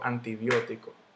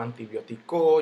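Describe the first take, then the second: First: The stress falls on the third-to-last syllable. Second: The stress falls on another syllable. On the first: The speaker calls it right. "yo digo antibiótico" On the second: The speaker calls it wrong. "yo no digo antibiótico"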